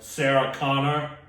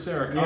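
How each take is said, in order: First: The name is said flat and robotic. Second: The name is said casually with natural expression. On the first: The speaker is a machine with no feeling. "did it so robotically" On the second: An ordinary person is asking around. "Not like"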